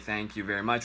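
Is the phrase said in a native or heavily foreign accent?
native. The phrase is said in a native English accent. The speaker calls it right.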